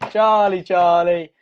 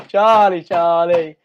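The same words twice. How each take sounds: The two takes are said the same way.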